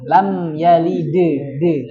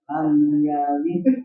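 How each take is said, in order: First: The final d is followed by an extra vowel. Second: The final d stops cleanly without a vowel. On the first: The speaker calls it wrong. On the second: The speaker calls it right.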